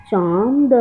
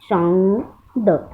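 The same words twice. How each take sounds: First: Said in the usual way. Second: चांद drawn out slowly with a nasal vowel; teacher slowly modelling चांद for children; slow nasal demo. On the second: Shown as a demonstration. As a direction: stretch चांद, letting the nasal vowel ring. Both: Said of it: "ऐसे पढ़ेंगे".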